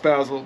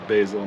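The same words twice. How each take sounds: First: It is said in the other, non-local way. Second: It is said the local Northern California way. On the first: This is how people elsewhere say it. "I understand it's basil, but that's the way it is" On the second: This is how people say it locally. "Say basil"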